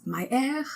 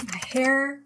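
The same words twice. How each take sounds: First: "air" for hair, H dropped; silent H. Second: Said in the usual way. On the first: Shown as a demonstration. Teacher showing French speakers' hair, silent H in "air". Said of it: "H is not supposed to be pronounced". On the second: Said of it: "H is not supposed to be pronounced in French".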